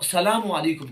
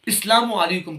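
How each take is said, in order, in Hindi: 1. अभिवादन 'sa' से शुरू होता है, 'as' से नहीं। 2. अभिवादन 'is' से शुरू होता है, जैसे 'Islam' में। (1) "ये बिल्कुल गलत है" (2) "ये बिल्कुल गलत है"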